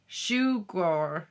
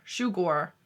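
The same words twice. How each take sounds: First: "Sugar" with a long u and a rolled final r, Welsh style; Welsh-sounding sugar. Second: "Sugar" again as "shoo-gor", shorter with a falling tune; repeat of the Welsh. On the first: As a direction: say "Sugar" as "shoo-gor". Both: Shown as a demonstration. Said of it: "reading the Welsh word".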